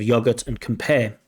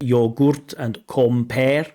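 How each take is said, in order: First: The unstressed vowels are reduced to schwa. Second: The unstressed vowels are pronounced as full vowels. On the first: The speaker calls it right. "instead of" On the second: The speaker calls it wrong. "over pronouncing vowels in their full forms"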